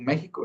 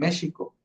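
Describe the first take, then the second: First: The middle consonant is not a sh sound. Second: The middle consonant is a sh sound. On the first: This is how it is pronounced today. "no lo hubieran pronunciado como México" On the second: This is how it was pronounced in the fifteenth century. "lo hubieran pronunciado como México"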